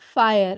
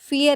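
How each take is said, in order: First: The first vowel is an 'eye' sound. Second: The first vowel is a short 'ee' sound. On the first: The speaker calls it right. "फायर है ना" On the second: The speaker calls it wrong. "फियर नहीं"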